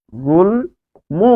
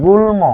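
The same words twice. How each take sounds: First: "গুল্ম" very slow, gul... mo; syllable by syllable. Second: Said in the usual way. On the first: Shown as a demonstration. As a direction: sound out "গুল্ম" with a long gap before a clear mo. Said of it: "সেখানে মো হয়ে যাবে". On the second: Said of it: "তাহলে এটি হচ্ছে".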